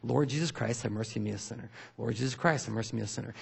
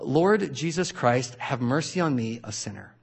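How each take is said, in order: First: Soft, even repeated prayer; quiet fluent repetition. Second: Slow, devout recitation fading to a hush; prayer recitation. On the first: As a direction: run the prayer quietly like a habit. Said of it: "out loud, using their vocals". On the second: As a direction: pray it slowly, letting the end die away. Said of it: "and it goes like this". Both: Shown as a demonstration.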